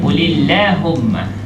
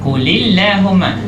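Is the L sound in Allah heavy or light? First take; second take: light; light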